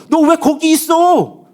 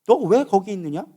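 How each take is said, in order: First: High, loud, long-drawn question; exclaimed reproach. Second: Slow, measured question in God's voice. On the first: Preacher as God repeating the question to Elijah, loud reproach. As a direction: cry it out slowly, every word stretched. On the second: Preacher as God asking Elijah why he is there, measured questioning. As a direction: ask it slowly, without raising the voice. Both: Acted.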